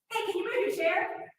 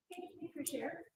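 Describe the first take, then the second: First: Higher, tense demanding request; sharp intense ask. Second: Quiet, gentle request; soft calm ask. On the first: Teacher to student, a sharp intense demand. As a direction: snap it out as a demand. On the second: Teacher to student, a soft gentle request. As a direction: ask it softly and kindly. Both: Shown as a demonstration. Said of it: "the tone of your voice".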